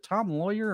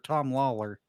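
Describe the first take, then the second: First: The surname's second syllable sounds like 'yer'. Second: The surname's second syllable sounds like 'ler'. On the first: The speaker calls it wrong. "did I pronounce the name wrong" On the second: The speaker calls it right. "So it is Lawler then"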